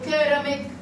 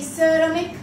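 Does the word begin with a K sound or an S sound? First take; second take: K sound; S sound. First: The word begins with a K sound. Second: The word begins with an S sound. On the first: "so it's going to be hard C" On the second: "If there is I or Y or E after letter C, we pronounce it S"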